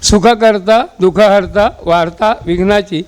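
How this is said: A short pause separates each word. The speaker calls it right. "असंच लिहायची आपल्याला, आपलं वळण आहे ते"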